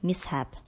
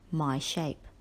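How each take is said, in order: First: The word is said as 'mishap'. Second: The word is said like 'my shape'. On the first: The speaker calls it right. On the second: The speaker calls it wrong.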